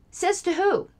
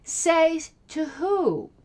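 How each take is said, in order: First: "Says to who?" jumps much higher in disbelief; incredulous challenge. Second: "Say to who?" stretched out very slowly, daring an answer; slow scornful challenge. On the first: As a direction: fire it back high and outraged. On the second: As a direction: drag the question out, unimpressed. Scoffing at opponent's claim. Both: Real, not acted.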